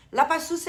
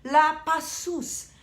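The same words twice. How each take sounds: First: "La Passus" with "La" stressed and a rising end; questioning "La Passus"; rising second try. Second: "La Passus" drawn out slowly in a put-on French sound; mock French "La Passus", slow; slow French try. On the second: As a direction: stretch "La Passus" like a French name. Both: Shown as a demonstration. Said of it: "I never know how to pronounce it".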